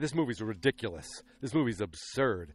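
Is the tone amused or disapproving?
disapproving. It sounds disapproving and dismissive.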